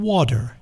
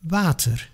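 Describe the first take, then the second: First: It is said the American English way. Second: It is said the Dutch way, lips barely moving. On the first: "or U S English water" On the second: "We say water"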